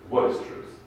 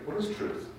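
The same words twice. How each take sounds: First: It is said cynically, brushing the question aside. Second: It is asked as a sincere, open question.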